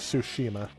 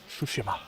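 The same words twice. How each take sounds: First: The word is said slowly and carefully. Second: The word is said at a normal pace. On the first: "So I'll say it more slowly" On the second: "they pronounce it Tsushima"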